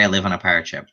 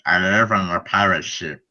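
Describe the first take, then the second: First: Said in the usual way. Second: Saying it while holding the tongue; tongue held, words come out mangled; holding tongue with fingers. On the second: Shown as a demonstration. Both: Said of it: "Hold your tongue and say".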